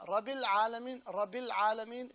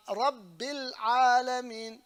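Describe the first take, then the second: First: "Rabbil Alameen" with a single short b; missing shadda. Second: Slow, loud "Rabbil Alameen" with held double b; stretched "Rabbil Alameen", b doubled; shadda on ba. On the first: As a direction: toss off "Rabbil Alameen" as Rabil, no hold. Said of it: "is not okay". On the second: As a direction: lean on the b of "Rabbil Alameen" and hold it. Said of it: "the shadda on the ba". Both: Shown as a demonstration.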